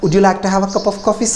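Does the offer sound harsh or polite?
polite. The offer sounds warm and polite. The guest feels welcomed. The speaker calls it right. "அந்த எக்ஸ்பிரஷனும் கரெக்டாக இருக்கணும்"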